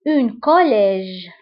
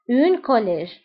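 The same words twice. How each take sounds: First: "une collège" stretched out slowly; teacher drills the new word for the class; slow teaching model. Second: Said in the usual way. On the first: Shown as a demonstration. Slow drill.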